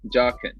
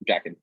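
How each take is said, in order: First: The first syllable sounds like 'jock'. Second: The first syllable sounds like 'jack'. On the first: The speaker calls it right. "It's with an O" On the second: The speaker calls it wrong. "I think I'm still pronouncing that incorrectly"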